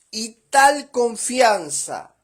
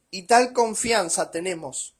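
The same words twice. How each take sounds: First: "tal" stressed, the phrase higher, louder and slow; slow emphatic reading. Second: Said in the usual way. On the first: Shown as a demonstration. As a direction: weigh each word of "Y tal confianza". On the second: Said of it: "o sea, en la hoja siguiente".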